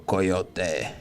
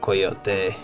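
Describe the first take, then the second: First: It is said with an English pronunciation. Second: It is said with a Spanish pronunciation. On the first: "some people go Coyote" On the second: "it might be more like Spanish, so it might be like Coyote"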